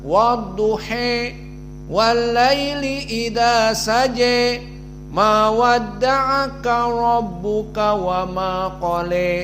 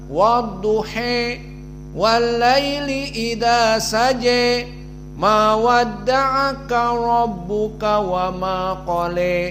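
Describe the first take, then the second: First: The vowel after duh is bent fully toward e. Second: The vowel after duh is bent fully toward e.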